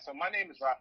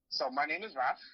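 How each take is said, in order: First: It is said at a fast pace. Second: It is said at a slow pace.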